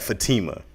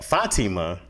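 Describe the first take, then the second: First: The name has an English-style pronunciation. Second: The name has a Middle Eastern pronunciation. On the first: The speaker calls it wrong. "but I'm mad at Fatima" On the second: The speaker calls it right. "I'm not mad at it when it's said with the right accent"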